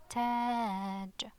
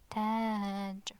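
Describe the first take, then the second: First: The vowel is long. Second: The vowel is long.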